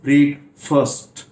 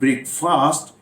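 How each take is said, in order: First: The second syllable has a reduced 'fust' sound. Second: The second syllable sounds like 'fast'. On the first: The speaker calls it right. "It's ब्रेक फर्स्ट" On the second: The speaker calls it wrong. "It's not ब्रेकफास्ट"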